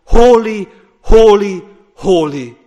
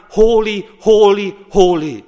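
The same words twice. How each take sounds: First: Much louder, full-throated cry; angels crying holy. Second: Loud ringing proclamation, each word struck; angels crying holy. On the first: Preacher voicing the angels' cry in heaven, much louder. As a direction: proclaim it at full force as the angels. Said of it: "They are crying around the heavenly throne room". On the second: Preacher voicing angels before the throne, loud ringing cry. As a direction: cry it out like the heavenly host. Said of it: "are around the throne crying". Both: Acted.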